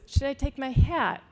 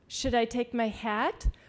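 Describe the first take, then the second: First: The pitch falls on the final word. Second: The pitch rises on the final word. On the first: The speaker calls it wrong. "She couldn't make herself change that tone" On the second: The speaker calls it right. "raise the tone on the final word in the sentence"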